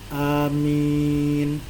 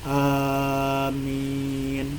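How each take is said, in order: First: The first vowel is short. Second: The first vowel is long. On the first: "a-nya pendek" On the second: "a-nya panjang, min-nya panjang"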